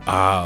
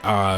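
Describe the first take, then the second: First: It sounds like an expression of pleasure. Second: It sounds like a sound of agreement.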